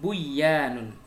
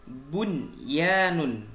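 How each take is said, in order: First: The n sound merges into the following y. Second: The n sound is pronounced clearly. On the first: The speaker calls it wrong. "bukan buyanun" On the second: The speaker calls it right. "Wajib dibaca idhar"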